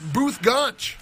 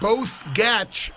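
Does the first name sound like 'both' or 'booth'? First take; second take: booth; both. First: The first name sounds like the word 'booth'. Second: The first name rhymes with the word 'both'. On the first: The speaker calls it right. "but it's pronounced" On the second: The speaker calls it wrong. "His name may look like"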